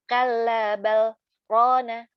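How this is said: There is a brief stop after 'bal'. The speaker calls it right. "itu memang ada saktah, ada perintahnya, harus saktah di situ"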